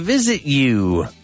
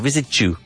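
First: The t and y sounds are said separately. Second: The t and y merge into a ch sound.

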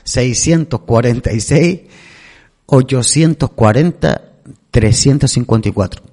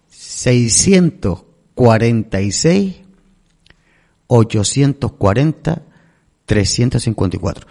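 First: The number is said at normal speed. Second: The number is said slowly.

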